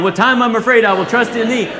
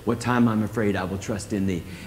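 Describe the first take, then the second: First: It is said loudly, almost shouted. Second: It is said calmly at normal speed.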